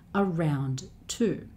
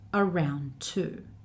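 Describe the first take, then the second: First: The two words are said slowly and separately. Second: The two words run together as one word. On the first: "Around two is just too slow" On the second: "the two words tend to be joined together to make one long word"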